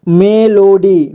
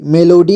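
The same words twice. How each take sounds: First: melody stretched into three slow syllables. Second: Said in the usual way. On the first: Shown as a demonstration. Teacher breaking down melody for learners, slowly syllable by syllable. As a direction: sound out melody slowly, piece by piece. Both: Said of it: "जोड़ जोड़ करके".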